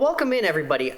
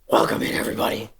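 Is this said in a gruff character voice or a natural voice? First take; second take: natural voice; character voice. First: It is said in the speaker's ordinary natural voice. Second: It is said in a gruff put-on character voice. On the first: "in my normal voice" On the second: "this is Draxus's voice"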